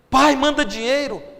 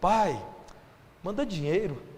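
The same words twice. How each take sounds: First: It is said in a curt, demanding tone. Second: It is said in a soft, gentle tone. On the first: The daughter only wants money from him. "Isso é jeito de falar com o pai?" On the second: The daughter is asking kindly for help. "Na verdade ela está dizendo assim"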